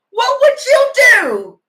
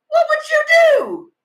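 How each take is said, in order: First: High, loud wailing plea with the stress on would. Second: Even higher repeated plea with the stress on What. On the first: Asking viewers what they would do, loud and high, stressing would. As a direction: stretch out would, slow and pleading. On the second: Asking viewers again, higher and louder, stressing What. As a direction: cry What out at the top of the voice. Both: Real, not acted.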